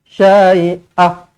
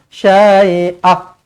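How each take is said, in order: Both takes have the same delivery.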